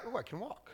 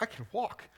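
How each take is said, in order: First: Soft, deflated "Oh, I can walk"; underplay it like it's no big deal; flat mumble. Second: Building into joyful surprise; excited. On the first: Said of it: "he doesn't just like". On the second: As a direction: say it as a man amazed he can walk. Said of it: "he's like". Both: Pretend.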